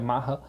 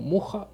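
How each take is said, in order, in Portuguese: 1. O nome é pronunciado como Maha. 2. O nome é pronunciado como Murra. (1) "a pronúncia dela, do nome dela é Maha" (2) "já vi pessoas pronunciando o nome dela como Murra"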